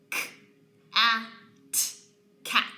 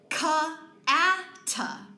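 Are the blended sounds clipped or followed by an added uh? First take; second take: clipped; added uh. First: Each consonant sound is clipped with no vowel. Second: Each consonant sound is followed by an uh vowel. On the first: The speaker calls it right. "When I correctly produce the sounds" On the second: The speaker calls it wrong. "If I accidentally add the schwa"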